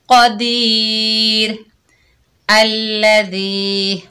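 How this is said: There is a pause after the first word.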